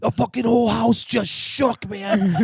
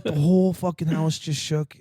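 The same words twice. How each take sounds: First: High, loud, slow stressed-out cry; imitating freaked-out buddy. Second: Slow, incredulous echo; feigned disbelief. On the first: Buddy telling prankster the house shook, imitated freak-out. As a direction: wail it in mock panic. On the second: Retold or imitated. Prankster playing innocent to spooked buddy, feigned disbelief. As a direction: repeat it back slowly as if it's nonsense.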